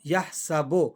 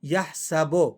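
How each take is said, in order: The two takes are said the same way.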